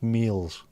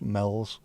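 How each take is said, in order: First: "meals" said with a long EE; Southport pronunciation. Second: "mells" said with a short E; Formby pronunciation. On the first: Local streamer showing viewers the Southport name, "meals" with long EE. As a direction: say "meals" to rhyme with "wheels". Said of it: "in Southport it's pronounced". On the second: Local streamer showing viewers the Formby name, "mells" with short E. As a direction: say "mells" to rhyme with "bells". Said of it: "In Formby it's pronounced". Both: Shown as a demonstration.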